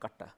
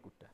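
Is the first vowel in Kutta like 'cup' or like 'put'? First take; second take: cup; put. First: The first vowel sounds like the one in 'cup'. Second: The first vowel sounds like the one in 'put'. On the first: The speaker calls it wrong. "So it's not Katta" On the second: The speaker calls it right. "U would be pronounced as U"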